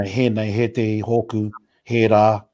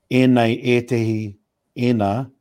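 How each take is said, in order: First: "he nei, he te, hoku, he rā" with a clear H at the start; mountain style with the H. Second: "e nei, e tehi, e nā" with no H sound at the start; Middle River pronunciation without the H. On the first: Contrasting dialects, he says "he nei" with the mountain-style H. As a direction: breathe an H onto "he nei" and "he rā". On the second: Explaining the dialect, he says "e nei, e tehi, e nā" without H. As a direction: say "e nei" and "e tehi" as plain vowels, dropping the H. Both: Shown as a demonstration. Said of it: "all has an H in it".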